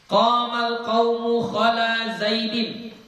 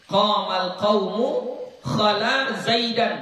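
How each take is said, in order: First: The last word ends with an 'in' sound. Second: The last word ends with an 'an' sound. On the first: The name follows a preposition. "Kalau sekiranya dibaca Zaidin" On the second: The name is the object of the verb. "kalau dia dibaca Zaidan"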